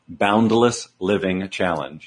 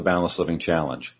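First: Slow, careful enunciation so it can't be misheard; slowly spelled-out program name; slow, deliberate. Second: Said in the usual way. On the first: Shown as a demonstration. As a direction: say each word slowly and separately. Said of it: "I'm gonna say it slowly 'cause everybody thinks I'm saying balanced". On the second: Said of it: "I'm gonna say it slowly".

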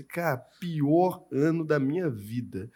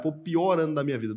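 First: "pior ano da minha vida" dragged out slowly, each word weighted; slow emphatic. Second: Said in the usual way. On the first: Shown as a demonstration. Telling the host his worst year, slow and emphatic. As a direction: lean hard on "pior" and stretch the phrase. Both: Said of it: "se eu pegar e falar pra você".

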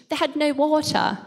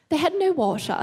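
First: Crisp British accent. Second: Said in the usual way. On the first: Shown as a demonstration. To the audience, joking, in a very British accent. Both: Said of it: "I said that very British".

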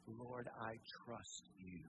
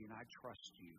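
First: Slow, hushed, tender repetition; slow tender prayer. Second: Softer, hushed words of trust; soft trusting prayer. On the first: Pastor repeating the believer's prayer, slow and tender. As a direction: linger on each word, surrendering. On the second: Pastor voicing a believer's prayer to God, hushed and trusting. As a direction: let it sink down to a hush. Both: Pretend.

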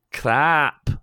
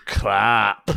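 First: Attempted Scottish accent, pitched up; Fat Bastard. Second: Put-on Scottish accent, punched out; gruff go at a Scottish accent; Fat Bastard. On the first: Reading a listener's request in a put-on Scottish accent. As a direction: try a higher Scottish character voice. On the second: Retrying the request for his co-hosts, Scottish accent. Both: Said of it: "in the accent of fat bastard".

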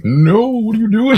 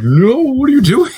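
First: Much higher and louder, shocked shout; hammed-up indignant hero yelling at his friend; outraged Captain America. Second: Shrieking much higher and louder in shock; overplayed hero losing it at a friend; outraged Captain America. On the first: Cap scolding Bucky. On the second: Steve coming back, scolding.

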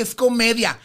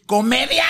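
First: Imitated producer's firm explanation; explaining. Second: Imitated indignant outburst; yelling in disbelief. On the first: Producer defending the character to the diva, explaining. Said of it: "el productor decía". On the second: Diva rejecting the producer's excuse, yelling in disbelief. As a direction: throw the word back, mock-outraged.

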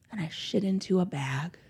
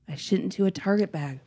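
First: Whispered confession, soft and breathy. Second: Said in the usual way. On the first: Real, not acted. Mother admitting to podcast cohosts what she did, in a whisper. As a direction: drop to a whisper for the punchline.

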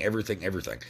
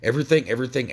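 First: "everything, everything" trailing off softer; fading repetition. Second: EVERYTHING, EVERYTHING hammered out louder and higher; repeated for emphasis. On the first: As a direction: let each "everything" sink quietly. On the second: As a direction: punch each "everything" hard and loud. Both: Shown as a demonstration. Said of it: "so let me say it a couple more times".

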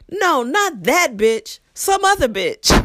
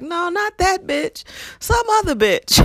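First: High, slow, loud blurt; not whispering. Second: Coworker's blurt. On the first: Coworker blurting within the student's earshot, loud and high. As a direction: blurt it out loud for all to hear. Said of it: "he did not whisper". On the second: Coworker retold blurting about the rude student. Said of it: "He was like". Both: Retold or imitated.

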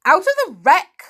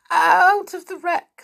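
First: Loud, high incredulous question; surprised. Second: Put-on high, slow little-girl voice; scared. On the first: Uncle echoing the little girl's answer, surprised. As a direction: echo it in astonishment, voice leaping up. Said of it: "said her uncle in surprise". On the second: Little girl answering her glaring uncle, scared. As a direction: answer fearfully, pitched right up. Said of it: "stammered the little girl, scared". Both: A narrator's reading.

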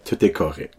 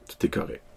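First: Said in the usual way. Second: "Tout est correct" fully whispered, no voice. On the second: Shown as a demonstration. Repeats reassurance, then whispers.

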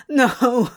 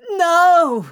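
First: Louder, anguished mild sob; sobbed. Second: Loud, high, desperate cry; scream. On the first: Crowley begging the archangel for Zira, sobbing. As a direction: cry it out in despair. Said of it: "Crowley sobbed". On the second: Crowley lunging at the archangel, desperate scream. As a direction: scream it to stop him. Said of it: "Crowley screamed". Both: A narrator's reading.

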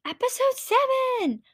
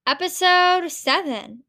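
First: High squealed title; excited announcement. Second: Said in the usual way. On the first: Shown as a demonstration.

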